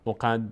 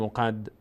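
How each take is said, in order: No difference in how they are said.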